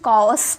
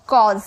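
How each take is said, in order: First: The word ends with an s sound. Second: The word ends with a z sound. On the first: The speaker calls it wrong. "बहुत सारे student कॉज पढ़ते हैं, स से स पढ़ते हैं" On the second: The speaker calls it right. "इसे स नहीं से ज पढ़ा जाता है"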